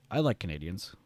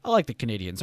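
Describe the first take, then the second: First: Said in the usual way. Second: "like" pushed out loud in "I like the Canadians", falling; emphatic. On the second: Real, not acted. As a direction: lean hard on "like" with a louder falling line.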